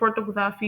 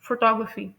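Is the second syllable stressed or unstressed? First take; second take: unstressed; stressed. First: The stress is not on the second syllable. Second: The stress is on the second syllable. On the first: The speaker calls it wrong. "कुछ लोग photography pronounce कर रहे होते हैं" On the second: The speaker calls it right. "Right pronunciation है photography... second syllable है ना टॉक, वो स्ट्रेस्ड है"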